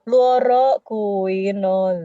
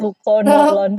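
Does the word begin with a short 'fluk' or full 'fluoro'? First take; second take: fluoro; fluk. First: The word begins with a full 'fluoro' sound. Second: The word begins with a short 'fluk' sound. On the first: The speaker calls it right. "Bacanya yang betul" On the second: The speaker calls it wrong.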